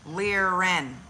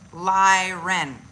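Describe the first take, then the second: First: The first syllable sounds like 'leer'. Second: The first syllable sounds like 'lie'. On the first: The speaker calls it right. "Yes. Not lie" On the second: The speaker calls it wrong.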